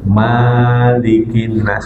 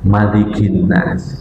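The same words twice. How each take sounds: First: The first vowel of malik is drawn long. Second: The first vowel of malik is short. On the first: The speaker calls it wrong. "nggak boleh" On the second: The speaker calls it right. "semuanya sepakat tidak boleh dibaca panjang"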